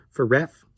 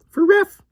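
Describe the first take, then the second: First: Said in the usual way. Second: "For ref." jumps high and louder, playful squeak; squeaky repeat. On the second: Shown as a demonstration. Teacher repeats his abbreviation in a silly squeak.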